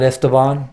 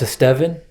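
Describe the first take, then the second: First: The name ends not rhyming with 'seven'. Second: The name ends rhyming with 'seven'. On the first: The speaker calls it wrong. "not Esteban" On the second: The speaker calls it right. "my name is pronounced Estevan"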